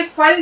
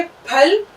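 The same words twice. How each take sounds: First: फल mispronounced as "fal"; lip-to-teeth F at the start of फल; wrong F sound. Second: Said in the usual way. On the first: Shown as a demonstration. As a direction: say फल with F, the incorrect way. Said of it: "ये बिल्कुल गलत है". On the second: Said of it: "पे और दो चश्मे हे की आवाज के साथ".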